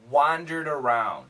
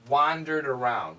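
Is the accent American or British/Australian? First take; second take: American; American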